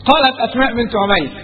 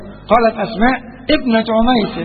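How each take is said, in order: First: The phrase runs on without a pause after Asma. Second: There is a pause after Asma before the rest. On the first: Another person answered with the woman's full name. "إنما لو العبارة متصلة تقول إيه؟ أسماء بنت" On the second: The woman herself answered, naming her father. "لأن نبتدي بهمزة قطع"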